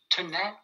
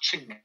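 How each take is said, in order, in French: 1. Le mot commence par un son t. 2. Le mot commence par un son ch. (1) "au lieu de tenait" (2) "le T qui se transforme en tu"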